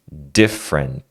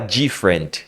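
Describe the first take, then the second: First: The first sound is a plain hard D. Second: The first sound is a soft DJ sound. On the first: The speaker calls it right. "É different. D, d. Esse di é d" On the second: The speaker calls it wrong. "você não fala different. Di, di. Não é di igual no português"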